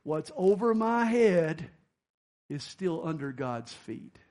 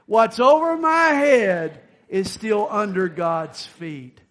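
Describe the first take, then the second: First: Slow, weighted motto; slow emphatic saying. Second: Slow, much louder emphatic shout; shouted motto, said like you mean it. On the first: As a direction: lean on over. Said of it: "Always remember this statement". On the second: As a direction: belt it out with conviction. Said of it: "say it like you mean it". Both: Shown as a demonstration.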